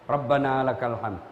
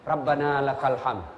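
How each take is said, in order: No difference in how they are said.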